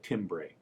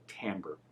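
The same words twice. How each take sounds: First: The word is read as it is spelled. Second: The word is pronounced the French way. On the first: The speaker calls it wrong. "Looks like timbre" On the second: The speaker calls it right. "but pronounce it timbre"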